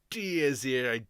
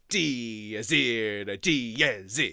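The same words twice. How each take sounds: First: Said in the usual way. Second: "Dies Irae" sung slowly with every strong beat hit hard and loud; accented beats. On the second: Shown as a demonstration. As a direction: punch each beat of "Dies Irae", slow and heavy. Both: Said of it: "you've got to accent all of the strong beats".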